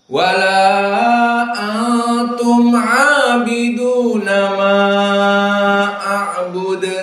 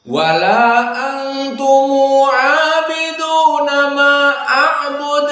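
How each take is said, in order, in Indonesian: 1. Antum diakhiri dengan m mati; vokalnya dibaca sedang. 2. Antum diakhiri dengan tambahan u; vokalnya dibaca pendek. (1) "dibaca tawassut dengan iskanul mim" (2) "dibaca antumu dua harakat ... kita baca qasr"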